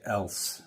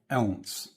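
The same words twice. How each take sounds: First: It has a standard, neutral pronunciation. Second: It has a regional, northern local pronunciation. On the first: The speaker calls it right. "So now I say else" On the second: The speaker calls it wrong. "people from where I'm from say"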